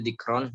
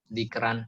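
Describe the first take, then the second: First: The r is pronounced heavy and thick. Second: The r is pronounced light and thin. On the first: "Yang pertama tafkhim dulu" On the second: "baru tarkik"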